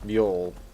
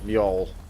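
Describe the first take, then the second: First: The J is sounded like a Y. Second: The J is sounded like a Y.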